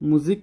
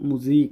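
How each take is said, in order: First: The second vowel is a short i sound. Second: The second vowel is a long ee sound. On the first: The speaker calls it wrong. "ముజిక్ అనకుండా" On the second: The speaker calls it right. "ముజీక్ అనాలి, ఈలాగా పలుకుతుంది"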